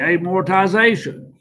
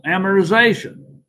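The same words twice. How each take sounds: First: The second syllable has no 'mer' sound. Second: The second syllable sounds like 'mer'. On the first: This is how others say it. "They pronounced it just like the other students" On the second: This is the speaker's own habitual way. "I put an M E R in there somehow or another"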